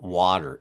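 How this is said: The middle consonant sounds like a D. This is the local Philadelphia way of saying it. The speaker calls it wrong. "I still say water, W A D E R"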